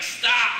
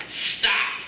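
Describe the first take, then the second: First: A firm, slightly raised stop; firm command. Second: Breathy whispered stop; whispered command. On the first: Pretend. Jesus standing up in the boat, firm command. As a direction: halt the storm with one firm word. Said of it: "stood up, like". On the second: Retold or imitated. Voice of God stilling the sea, whispered. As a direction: hush the storm with a whisper. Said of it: "That voice just said".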